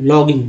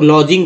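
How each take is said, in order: First: The middle consonant is a hard g sound. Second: The middle consonant is a soft j sound. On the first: The speaker calls it right. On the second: The speaker calls it wrong. "अब कितना लोग लॉजिंग बोल देंगे"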